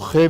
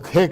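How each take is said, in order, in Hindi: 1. यह गले से निकली, रगड़ वाली घर्षी ध्वनि से शुरू होती है। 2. यह k जैसी महाप्राण स्पर्श ध्वनि से शुरू होती है। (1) "वो खे नहीं कह सकते" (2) "वो खे कहते हैं उसको।"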